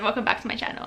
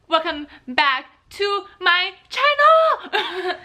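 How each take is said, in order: First: It is said calmly and more quietly. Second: It is said loudly and aggressively.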